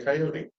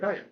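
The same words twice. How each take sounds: First: It is said the Midwestern or Eastern way. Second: It is said the Western regional way.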